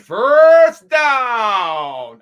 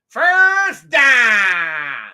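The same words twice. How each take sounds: First: Down has the usual gliding 'ow' vowel. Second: Down has a flat 'ah' vowel, like dahn. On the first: "as opposed to D O W N" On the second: "D A H N"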